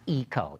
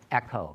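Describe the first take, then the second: First: It uses the American pronunciation of the word. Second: It uses the overseas pronunciation of the word. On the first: "Eco is a very American pronunciation" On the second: "overseas, people pronounce it Echo"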